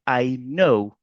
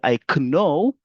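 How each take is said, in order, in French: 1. Le k au début de 'know' est muet. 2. Le k au début de 'know' se prononce. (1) "mais plutôt on va dire I know" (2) "on ne va pas dire I know"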